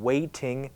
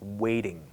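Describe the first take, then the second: First: The middle t is a clear, full t sound. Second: The middle t is a soft, quick flap. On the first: "the T that you might expect"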